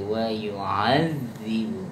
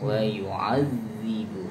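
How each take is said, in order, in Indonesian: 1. Bunyi ain diucapkan lunak dan lembut. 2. Bunyi ain diucapkan lunak dan lembut.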